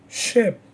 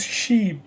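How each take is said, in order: First: "ship" with a short, lax i; short vowel. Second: "sheep" with a long ee; long vowel. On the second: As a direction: stretch the ee in "sheep". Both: Shown as a demonstration. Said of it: "vowels can be short or long".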